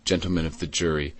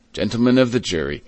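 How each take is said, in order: First: Mildly gentle, a little quick. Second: Slightly raised orator's voice, a little quick; formal courtroom address. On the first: Madeleine to the jury in court, gently. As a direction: address them softly and gently. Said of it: "said in a gentle voice". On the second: District attorney to the jury, formally projected. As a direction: open a speech to the jury firmly. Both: A narrator's reading.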